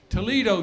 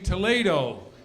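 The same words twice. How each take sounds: First: It uses the local Ohio pronunciation. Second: It uses the standard pronunciation. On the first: The speaker calls it wrong. "not pronounced the way they should be" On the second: The speaker calls it right. "should be"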